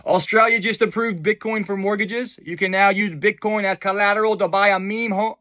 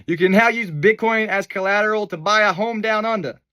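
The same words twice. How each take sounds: First: A clumsy attempt at an Australian accent; a botched, half-hearted Australian accent; a failed try at an Australian accent; bad Australian accent. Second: The Australian accent done again to fix the first; an Australian accent given one more try; second go at an Australian accent. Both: Shown as a demonstration. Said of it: "That was a bad Australian accent".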